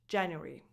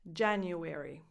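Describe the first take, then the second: First: It is said with three syllables. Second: It is said with four syllables. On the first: "So with just three syllables instead of four" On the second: "This is the standard American English pronunciation"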